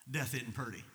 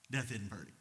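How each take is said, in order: Both takes have the same delivery.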